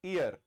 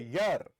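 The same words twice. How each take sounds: First: ईयर said i-yar, starting on a plain ee vowel; ईयर with an ee vowel start, not a y; wrong ear sound. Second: ईयर said yar, starting on a clear y; correct year sound. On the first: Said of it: "ईयर नहीं है". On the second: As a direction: say ईयर like English year, y first. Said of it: "तो इसका उच्चारण ईयर है". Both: Shown as a demonstration.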